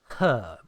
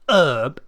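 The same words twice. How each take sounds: First: The word begins with a clear H sound. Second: The word begins with a vowel, no H. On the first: The speaker calls it right. "British people pronounce the H. ... Like house, here, help" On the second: The speaker calls it wrong. "Not herb. We don't need to start part way through"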